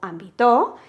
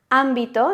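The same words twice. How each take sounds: First: The stress is on a later syllable. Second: The stress is on the first syllable. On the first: The speaker calls it wrong. "ni siquiera pronunciamos ámbito o ámbito" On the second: The speaker calls it right. "tenemos el golpe de voz en am, porque hacemos ámbito"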